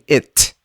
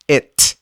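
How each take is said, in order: The two takes are said the same way.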